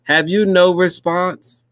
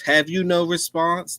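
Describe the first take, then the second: First: Higher, louder and slow mock British reporter; mock British accent. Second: Higher, hammed-up English reporter; lightly mocking British reporter question; mock British accent. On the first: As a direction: ham up a posh English reporter, slow and high. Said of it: "You gotta start talking like this". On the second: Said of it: "That you from England or something".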